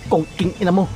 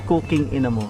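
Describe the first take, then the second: First: It is said hard and forcefully. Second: It is said softly and smoothly. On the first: The speaker calls it wrong. "Yung may patigas na gano'n, wag" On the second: The speaker calls it right. "yung smooth cooking ina mo"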